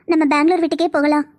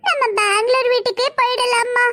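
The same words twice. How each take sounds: First: Said in the usual way. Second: Put-on high pleading little kid's voice; child voice. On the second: Small son begs to go back to Bangalore, high child voice. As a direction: beg mom like a small child.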